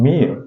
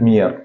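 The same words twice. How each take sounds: First: "Mere" as a vowel glide with no r; silent final r. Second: "mere" with the final r sounded; mispronounced final r. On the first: Teacher corrects the word for learners, r-less "Mere". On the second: Teacher warns learners it is not said so, r-ful "mere". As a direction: say "mere" wrongly, voicing the r at the end. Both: Shown as a demonstration. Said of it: "It is not mere".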